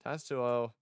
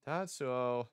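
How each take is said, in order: Both takes have the same delivery.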